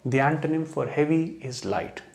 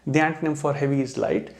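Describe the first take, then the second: First: The sentence is said slowly and calmly. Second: The sentence is said quickly.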